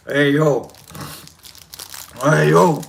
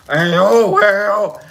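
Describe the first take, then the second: First: Low Philly "Hey, yo"; warming up into a Rocky impression. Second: Rocky voice with dropped lip. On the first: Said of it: "trying to do a Rocky". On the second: Pretend. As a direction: drop the lip and push the Rocky voice. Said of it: "I gotta drop the lip".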